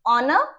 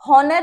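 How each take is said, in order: First: The word begins with a vowel, h silent. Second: The word begins with a sounded h. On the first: The speaker calls it right. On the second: The speaker calls it wrong.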